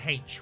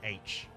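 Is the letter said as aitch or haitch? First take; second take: haitch; aitch. First: The letter name begins with an h sound. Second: The letter name begins with a vowel sound. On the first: The speaker calls it wrong. "I said H" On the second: The speaker calls it right. "There's no H at the start of that sound"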